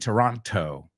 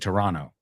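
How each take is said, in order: First: The second t is clearly pronounced. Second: The second t is dropped. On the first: The speaker calls it wrong. "We don't say Toronto" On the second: The speaker calls it right. "We say Toronto. Nos comemos la T"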